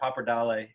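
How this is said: The word has a strongly Italian pronunciation.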